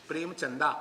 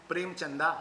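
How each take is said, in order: Both takes have the same delivery.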